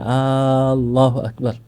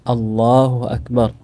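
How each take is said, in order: First: The opening vowel is drawn out long. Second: The opening vowel is short. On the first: It asks whether God is the greatest. The speaker calls it wrong. "bukan; tidak boleh sebenarnya dipanjangkan" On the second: It states that God is the greatest. The speaker calls it right. "seharusnya kita baca"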